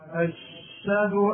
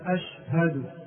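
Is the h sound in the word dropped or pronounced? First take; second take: dropped; pronounced. First: The h is dropped and the sh is doubled. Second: The h is clearly pronounced after the a. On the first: The speaker calls it wrong. "يحذف الهاء ويشدد الشين" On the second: The speaker calls it right. "ينبغي أن يظهر الهاء"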